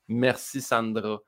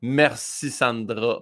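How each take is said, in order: First: Slow, soft Québécois Merci Sandra; Québécois accent. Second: Slow, broad Saint-Hyacinthe Québécois Merci Sandra; Québécois accent. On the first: Parting shot to the director, soft slow Québécois accent. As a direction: say Merci Sandra slowly and quietly in a Saint-Hyacinthe Québécois accent. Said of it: "en français". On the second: Thanking the program director in broad Québécois accent. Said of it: "un Sandra bien, prononcé québécois Saint-Hyacinthe". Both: Retold or imitated.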